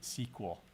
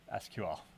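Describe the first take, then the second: First: It is said as one word. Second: It is spelled out letter by letter. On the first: The speaker comes from a Microsoft background. "they all pronounce it S Q L" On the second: The speaker comes from an open-source background. "how did I pronounce it? ... Because it's an acronym"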